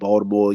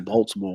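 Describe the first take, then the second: First: The word is said without a T sound. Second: The word is said with a clear T sound. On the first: The listener is a fellow local. "When I when I'm talking to Charles, I'm like Baltimore" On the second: The listener is from outside the city. "When I'm talking to somebody outside of Baltimore, I say Baltimore"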